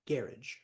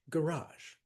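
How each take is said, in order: First: The stress is on the first syllable. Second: The stress is on the second syllable. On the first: This is how it is said in Britain. "In Britain ... first syllable" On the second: This is how it is said at home. "we say garage, second syllable"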